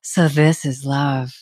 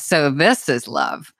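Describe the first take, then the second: First: It is said with a gasp, sounding shocked. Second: It is said with a laugh, sounding happy.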